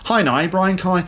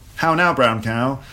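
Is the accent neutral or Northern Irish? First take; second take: Northern Irish; neutral. First: It is said in a Northern Irish accent. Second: It is said in a neutral, non-regional accent.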